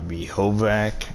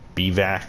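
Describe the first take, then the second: First: The word is said with every letter sounded. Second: The word is said with some letters silent. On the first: The speaker calls it wrong. "it's not Behovac" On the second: The speaker calls it right. "it's like Bivac? Like certain letters are silent"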